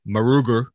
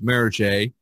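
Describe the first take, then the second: First: The name is said with an American pronunciation. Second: The name is said with a French pronunciation. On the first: "most Americans call it Maruger" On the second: "the French Merige"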